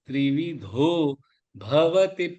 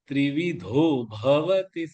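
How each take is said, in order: First: A slight pause comes after the first word. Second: The two words run together without a pause. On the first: The speaker calls it right. "அந்த தோல கொஞ்சோண்டு ஒரு pass எடுத்தேன்னா இந்த ப கரெக்டா வரும்" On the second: The speaker calls it wrong. "அது சேர்த்து சொல்ல ட்ரை பண்ணேன்னா கஷ்டமா இருக்கும்"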